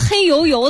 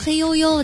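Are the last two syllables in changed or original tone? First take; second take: original; changed. First: The last two syllables keep their original tone. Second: The last two syllables are said in a changed tone. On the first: The speaker calls it wrong. "咱们平时不会说你这东西黑油油的吧" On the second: The speaker calls it right. "你会说黑悠悠的"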